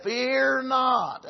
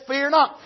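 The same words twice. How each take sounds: First: "Fear not." said softer, gently falling; tender. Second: Said in the usual way. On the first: Retold or imitated. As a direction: comfort him softly with fear not. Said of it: "No, he just said". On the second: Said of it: "the tenderness in the voice of the Lord".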